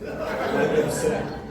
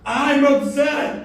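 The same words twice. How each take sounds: First: It is said quietly. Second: It is said loudly.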